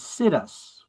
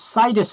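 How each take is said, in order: First: It is pronounced like the words 'sit us'. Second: It is pronounced the Latin way. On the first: The speaker calls it wrong. "I always mispronounced it as situs" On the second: The speaker calls it right. "It's situs in Latin"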